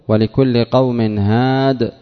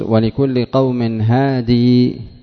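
First: The last word ends without a final ee vowel. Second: The last word ends with a long ee vowel. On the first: This is the preferred pausal form. "في الأرجح" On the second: This is a permissible pausal form. "ويجوز"

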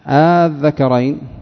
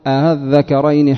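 First: The opening vowel is drawn out long. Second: The opening vowel is softened and kept short. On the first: "المقدم عندهم لأن في الأداء المد" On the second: "الوجه الآخر أن تقول"

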